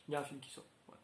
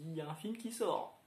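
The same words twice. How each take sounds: First: Quiet aside. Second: Said in the usual way. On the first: Real, not acted. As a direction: mutter it again like a knowing aside. Repeats the remark as an aside. (en aparté, plus doux et plus grave)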